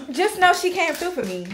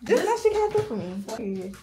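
First: Loud, high hype shout-out; excited shout-out. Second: Slower, each word leaned on, "Just know she came through for me"; slow emphatic repeat. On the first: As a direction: belt it out like a big thank-you. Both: Shown as a demonstration.

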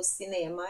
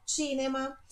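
First: Said in the usual way. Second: Cinema with a ch sound at the start, Italian style. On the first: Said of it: "a palavra é igual em português, mas a pronúncia é". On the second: Shown as a demonstration. Teacher models the Italian Cinema for students, clearly. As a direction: say Cinema with ch, stress the first syllable. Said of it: "Esse C I é ti".

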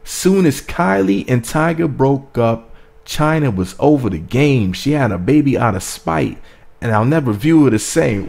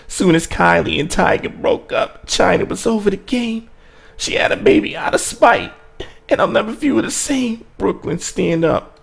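First: Rapped, deliver each line like a heavy bar; rapped, deliberate, punched phrases with falling ends; reciting rap bars. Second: High-pitched rapper impression; put-on rap voice held high through each bar. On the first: Shown as a demonstration. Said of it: "gotta go back to them bars". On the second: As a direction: impersonate a famous rapper performing the verse. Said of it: "say it in [name]'s voice".

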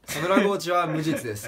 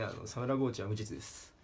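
First: Said in the usual way. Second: "サムラゴーチは無実です" murmured low and soft; quiet aside. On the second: Shown as a demonstration. Comedian quietly mutters the joke line, softer and lower. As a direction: drop "サムラゴーチは無実です" to a low hush.

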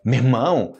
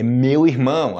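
First: "Meu irmão" merged into "mermão"; two-syllable casual "mermão" for "Meu irmão"; colloquial contraction. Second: "meu irmão" in full, slowly, each word distinct; unhurried, uncontracted "meu irmão"; slow full form. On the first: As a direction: say "Meu irmão" as quick "mer-mão". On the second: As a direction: separate "meu" and "irmão" carefully. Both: Shown as a demonstration. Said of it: "É meu irmão".

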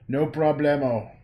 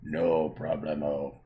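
First: Loud, bright-toned playful call; loud playful catchphrase; playful no problemo. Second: Lower, slower, drawn-out no problemo; deep drawn-out repeat; low slow take. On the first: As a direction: toss it out loudly and breezily. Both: Shown as a demonstration.

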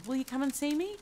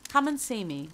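First: "come and see me" higher, climbing to the end; eager question. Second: Said in the usual way. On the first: A narrator's reading. Scrooge begs the gentleman to visit, eager rising question. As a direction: plead it, rising all the way up on "me".

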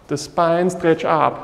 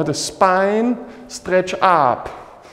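First: Said in the usual way. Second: Slow stretch cue. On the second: Shown as a demonstration.

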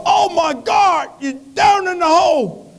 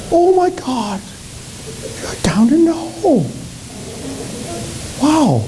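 First: High, shouted Baptist preacher cry. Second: High-pitched, exclaiming woman's voice; female passerby. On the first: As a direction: holler in alarm like a revival preacher, drawn out. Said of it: "a Baptist preacher walked by". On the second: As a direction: play a woman aghast at what she finds. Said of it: "a female walked by". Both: Acted.

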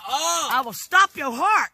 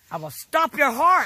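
First: Very slow, loud deliberate threat; slower threat. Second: Slow, loud menacing threat. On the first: Grandma repeating her threat to grandson, slower. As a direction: drag each word out. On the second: Grandma threatening her grandson, slow and loud. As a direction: lean on every word. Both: Real, not acted.

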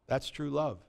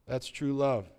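First: Soft. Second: Said in the usual way. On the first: Shown as a demonstration. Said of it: "repeated softer". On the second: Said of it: "repeated take".

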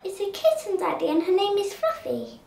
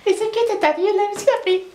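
First: Lightly voiced little girl; child's line. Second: Much higher, fast squeaky kid imitation; mock child voice. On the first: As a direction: say it simply like a kid. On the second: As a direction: mimic the little girl teasingly. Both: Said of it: "that's what a kid would say".

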